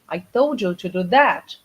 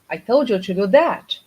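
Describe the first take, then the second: First: The word 'that' carries the main stress. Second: The same.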